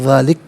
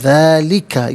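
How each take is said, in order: First: The word ends on the k consonant. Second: The word ends with a short final vowel. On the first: The reader stops here. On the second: The reading continues without stopping.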